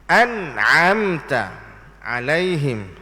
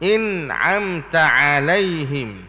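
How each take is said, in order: First: The first vowel is a clear a. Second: The first vowel is thinned toward i. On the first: The speaker calls it right. "dia nak a juga. A saja" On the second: The speaker calls it wrong. "Jangan dibaca in'amta"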